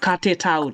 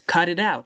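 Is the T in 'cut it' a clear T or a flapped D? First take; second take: clear T; flapped D. First: The T is pronounced as a clear T sound. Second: The T is pronounced as a soft flapped D. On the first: The speaker calls it wrong. "It's not" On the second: The speaker calls it right. "No, it's"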